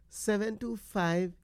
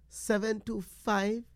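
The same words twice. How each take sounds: The two takes are said the same way.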